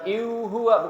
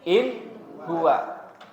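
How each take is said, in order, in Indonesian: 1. Bunyi n dihilangkan atau dikaburkan. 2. Bunyi n dibaca jelas dan tegas. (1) "bukan iu huwa" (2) "tapi harus dibacanya in huwa"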